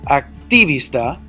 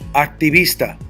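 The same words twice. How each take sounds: First: The stress is on the syllable ti. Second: The stress is on the syllable vis. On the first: The speaker calls it wrong. "I would have an accent mark over that first I, but that's not how you pronounce the word" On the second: The speaker calls it right. "The natural raise of my voice is second to the last"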